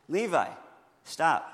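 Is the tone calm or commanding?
calm. It is said in a plain, calm tone.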